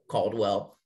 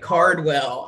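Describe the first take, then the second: First: The first syllable sounds like 'call'. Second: The first syllable sounds like 'car'. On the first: The speaker calls it wrong. "me saying it incorrectly" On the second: The speaker calls it right. "It's Cardwell"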